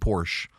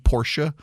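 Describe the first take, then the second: First: It is said with one syllable. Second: It is said with two syllables. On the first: This is the pronunciation one grew up with. "I'm saying Porsche" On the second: This is the maker's official pronunciation. "If you want it to be Porsche"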